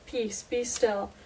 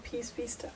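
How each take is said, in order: First: Calm command. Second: Quiet comfort to our storm; peace, be still whispered gently; soft calm words. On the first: A narrator's reading. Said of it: "he rebuked the wind and said". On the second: Retold or imitated. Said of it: "he's gonna say to our storm too".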